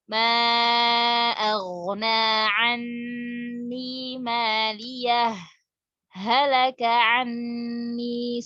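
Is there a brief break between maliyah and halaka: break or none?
break. A brief stop without breath follows maliyah. The speaker calls it right. "Kita berhenti sejenak tanpa bernapas baru baca ayat selanjutnya"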